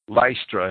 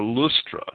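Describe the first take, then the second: First: The first syllable sounds like 'lis'. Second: The first syllable sounds like 'loos'. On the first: "Lystra and Derbe" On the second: "Lustra is probably the proper pronunciation"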